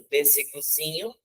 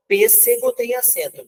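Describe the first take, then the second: First: Teacher contrasts "pêssegozinho" with "pêssego", stress on zi; stress on zinho. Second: "pêssego" lifted high, first syllable pês stressed; teacher sets "pêssego" against "pêssegozinho", stress on pês. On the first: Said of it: "o zi que é a sílaba tônica". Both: Shown as a demonstration.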